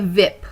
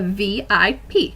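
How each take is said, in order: First: It is said as one blended word. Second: Each letter is said separately. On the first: The speaker calls it wrong. "We don't say" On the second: The speaker calls it right. "we have to pronounce or enunciate each specific letter"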